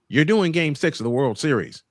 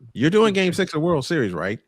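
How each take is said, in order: First: It ends with a statement-like fall. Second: It ends with a questioning rise.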